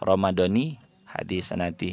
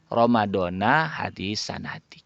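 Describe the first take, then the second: First: The first word ends in an 'i' vowel. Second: The first word ends in an 'a' vowel. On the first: The speaker calls it right. "yang betul kata kitab" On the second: The speaker calls it wrong. "kurang pas kalau dibaca Ramadhana hadis sanati. Kebalik dia"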